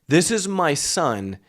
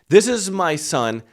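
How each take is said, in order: No difference in how they are said.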